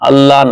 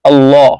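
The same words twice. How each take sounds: First: The L sound is light and thin. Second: The L sound is heavy and full. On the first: The speaker calls it wrong. "আল্লাহ না" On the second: The speaker calls it right. "আল্লাহ শব্দ পুর হবে"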